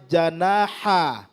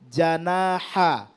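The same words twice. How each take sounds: The two takes are said the same way.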